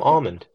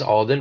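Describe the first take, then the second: First: The name is said with an m sound. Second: The name is said with a d sound. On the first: The speaker calls it wrong. "but I like to call him Almond" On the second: The speaker calls it right. "I know it's Alden"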